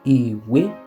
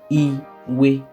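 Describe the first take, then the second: First: The first syllable is low, the second high. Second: Both syllables are on the same mid pitch. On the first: It means book. "do, mi" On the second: It means gizzard. "re, re"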